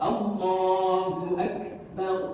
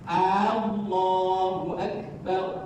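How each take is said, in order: First: The first vowel is said short. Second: The first vowel is drawn out long. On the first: A statement that God is great. The speaker calls it right. "Artinya Allah Maha Besar" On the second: A question asking whether God is great. The speaker calls it wrong. "A-nya terpanjangkan"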